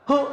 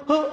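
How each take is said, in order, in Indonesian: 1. Diucapkan sangat cepat, menjadi hu. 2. Diucapkan sangat cepat, menjadi hu.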